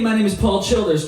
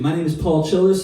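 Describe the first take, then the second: First: The voice sounds clearer, with boosted mids and highs. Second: The voice sounds plainer, with less clarity and presence. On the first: "Now let's turn it on" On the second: "I'll start with it turned off"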